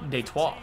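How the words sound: It is said with a French accent.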